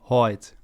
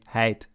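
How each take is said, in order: First: The diphthong is pronounced further back. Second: The diphthong is pronounced further front. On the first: "a Kleifriesk speaker would say ... further back in the mouth" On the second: "a Waardfriesk speaker would say"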